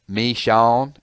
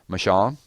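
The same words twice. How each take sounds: First: The name is said in a Southern drawl, split apart. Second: The name is said in a neutral standard accent. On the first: It mimics how people in Georgia say it. "if you've ever been to Georgia" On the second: It follows the polite accepted pronunciation. "politically correct and say Michon"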